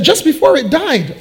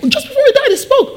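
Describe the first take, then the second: First: Said in the usual way. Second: Very high-pitched, incredulous squeak; astonished echo. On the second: Acted. Shop manager hears the parrot spoke, astonished. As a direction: echo it in acted amazement. Manager echoes news in amazement.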